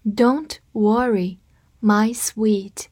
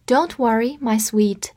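First: Slow, drawn out words; slow read. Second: Said in the usual way. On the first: Shown as a demonstration. Teacher reads slowly for learners to copy. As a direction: say it slowly for students. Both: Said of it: "跟着我慢读一遍".

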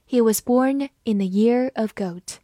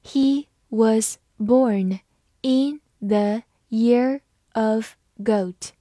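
First: Said in the usual way. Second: Very slow, word by word; slow, deliberate teaching pace; slow reading. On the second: Shown as a demonstration. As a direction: read it slowly with each word set apart. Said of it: "好，慢读一遍".

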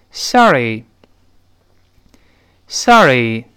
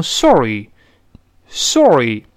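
First: Sorry with an open American ah sound. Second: Sorry said slowly with a rounded British o; drawn-out British sorry with lips rounded. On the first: Teacher leads the class in the American sorry, open mouth. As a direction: say sorry with the mouth opened wider, American style. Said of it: "大声读一下". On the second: Teacher shows the British way to say it, slow and rounded. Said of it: "英式读成sorry". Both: Shown as a demonstration.

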